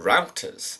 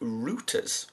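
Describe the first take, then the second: First: It is said in an American accent. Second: It is said in a non-American accent.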